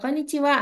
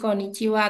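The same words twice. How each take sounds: First: The pitch rises across the word. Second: The pitch stays flat across the word. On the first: "mau intonasinya datar atau naik" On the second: "mau intonasinya datar atau naik"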